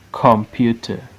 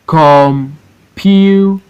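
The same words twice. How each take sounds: First: Said in the usual way. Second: COM, PU, TER, slow and separate; syllable by syllable. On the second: Shown as a demonstration. Teacher showing three syllable words, Computer broken as COM-PU-TER. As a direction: Computer in three long beats with pauses. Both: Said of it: "look at three syllable word".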